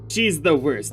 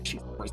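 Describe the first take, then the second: First: It is said in a normal voice. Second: It is said in a creepy voice.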